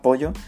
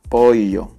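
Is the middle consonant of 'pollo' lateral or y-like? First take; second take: y-like; lateral. First: The middle consonant sounds like a y. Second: The middle consonant is a lateral ll sound. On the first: The speaker calls it wrong. "realmente lo decimos como si fuese una Y" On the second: The speaker calls it right. "pero tendrías que decir pollo"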